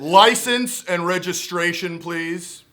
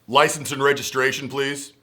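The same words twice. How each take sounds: First: It is said in a forceful, authoritative tone. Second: It is said in a plain, ordinary tone.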